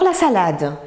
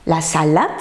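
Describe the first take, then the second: First: Said in the usual way. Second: SALADE with a final T sound for D; confused sounds. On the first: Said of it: "pour la salade". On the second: Shown as a demonstration. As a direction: misread salade as "salate". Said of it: "souvent de sons proches".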